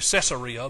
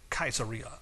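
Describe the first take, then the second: First: The word begins with a soft S sound. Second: The word begins with a hard K sound. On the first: This is how people here usually say it. "We just always say Caesarea" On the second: This is how people there say it. "They actually pronounce it Caesarea"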